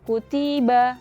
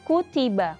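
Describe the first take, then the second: First: One syllable is longer or shorter than the others. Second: All syllables are equally short. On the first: The speaker calls it wrong. "bukan seperti itu" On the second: The speaker calls it right. "tapi kutiba"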